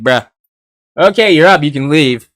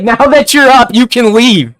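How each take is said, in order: First: Flat, bored bruh-style brush-off; dismissive. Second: High, loud, curt brush-off; rude and angry. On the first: Ichigo casually tells the kid to go, half-bored. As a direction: wave him off like he doesn't care. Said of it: "he's just like". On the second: Ichigo tells the boy who just woke up to leave, loud and rude. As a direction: throw him out, clearly annoyed. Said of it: "you can see he's angry here". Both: Retold or imitated.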